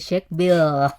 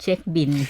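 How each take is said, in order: First: The last word ends with an l sound. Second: The last word ends with an n sound. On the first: This is the original form nobody locally uses. "Nobody will say check bill" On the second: This is the adopted local form everyone uses. "pronounce it the Thai way"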